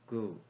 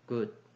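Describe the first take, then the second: First: The word ends without a d sound. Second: The word ends with a d sound.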